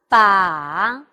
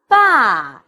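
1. 音高先降到低，然后上升。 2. 音高从高降到低。

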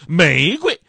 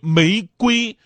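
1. 第二个音节很轻，读轻声。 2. 第二个音节要重读，读本调。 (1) "感觉总是很便宜" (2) "你要是把这个瑰字突出了"

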